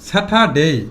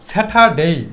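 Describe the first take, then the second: The two takes are said the same way.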